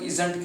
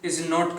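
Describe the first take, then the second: First: It is said as one contracted word. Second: It is said as two full separate words.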